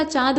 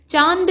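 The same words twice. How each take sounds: First: चांद with just a nasal vowel; correct form. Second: चांद with a full n; wrong form. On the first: Teacher correcting it, चांद with nasalised aa only. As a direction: say चांद without a full n. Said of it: "चांद होता है". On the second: Teacher showing the mistake, चांद with a full n. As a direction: say चांद as "chaand", n sounded. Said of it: "नहीं होता". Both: Shown as a demonstration.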